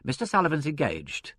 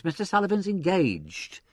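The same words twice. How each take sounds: First: Impassive secretary's brush-off. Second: Higher-pitched protest. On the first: Secretary to inspector at the desk, impassive. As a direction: turn the caller away without feeling. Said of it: "said the secretary impassively". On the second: Secretary to surging applicants, protesting. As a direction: insist to the crowd he's busy. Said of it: "protested the secretary". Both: A narrator's reading.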